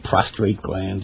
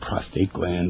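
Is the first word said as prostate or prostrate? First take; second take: prostrate; prostate. First: The word has an extra r: prostrate. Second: The word has no extra r: prostate. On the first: The speaker calls it wrong. "Like men say prostate gland" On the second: The speaker calls it right. "it's really the prostate gland"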